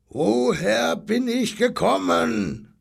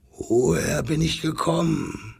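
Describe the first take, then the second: First: High, slow, roared question; brüllender Löwe. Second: Lightly voiced lion, wondering; a hint of a lion in the voice; fragender Löwe. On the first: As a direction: bellow it drawn out, demanding to know. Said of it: "Da brüllte der Löwe so lange". (hoch und langgezogen gebrüllt) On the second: Lion character questioning the robin. (leicht angedeutete Löwenstimme, fragend) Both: A narrator's reading.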